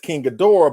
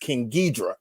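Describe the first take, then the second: First: The name is said with three syllables, Ghi-do-rah. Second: The name is said with two syllables, Ghi-dra. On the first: It refers to the later film version of the monster. "I look at the Heisei version as King Ghidorah" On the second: It refers to the earlier film version of the monster. "look at the Showa version as King Ghidra"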